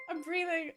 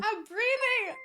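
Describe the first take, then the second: First: Much softer, settling herself; quietly calm yourself down. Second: High and flustered; breathless with excitement. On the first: Streamer calming herself after the raid, much softer. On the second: Streamer starstruck by a raid, flustered and high. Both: Real, not acted.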